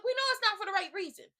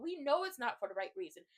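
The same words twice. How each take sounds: First: Loud, higher exasperated yell. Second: Said in the usual way. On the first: Real, not acted. Telling viewers his proposal is wrong, yelling. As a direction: yell it out in one raised burst. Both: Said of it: "I don't mean to yell at you".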